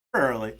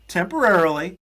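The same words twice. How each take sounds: First: Said in the usual way. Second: Temporarily. rising high and loud; emphatic. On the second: Shown as a demonstration. Teasing a banned podcast guest, temporarily. punched high and loud. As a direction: lean hard on temporarily. with an upward lift.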